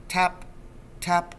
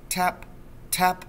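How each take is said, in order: Both takes have the same delivery.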